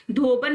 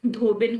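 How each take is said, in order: First: धोबन with an 'a' in the second syllable; wrong pronunciation. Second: धोबिन with short 'i' after b; correct pronunciation. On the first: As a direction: say धोबन as dho-ban. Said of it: "धोबन नहीं होता". (धोबन में 'ब' बिना इ की मात्रा) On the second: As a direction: say धोबिन as dho-bin. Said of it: "धोबिन होता है". (धोबिन में 'बि' छोटी इ के साथ) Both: Shown as a demonstration.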